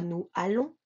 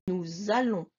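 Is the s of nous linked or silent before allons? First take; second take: silent; linked. First: The s of nous is silent before allons. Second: The s of nous links as a z sound. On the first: The speaker calls it wrong. "Je dis pas nous allons" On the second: The speaker calls it right. "je dis nous allons"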